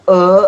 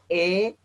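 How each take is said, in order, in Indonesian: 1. Bunyinya e sheva. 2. Bunyinya e sere. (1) "Kalau e itu sheva" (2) "Kalau e itu sere"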